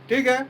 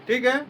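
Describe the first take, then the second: The two takes are said the same way.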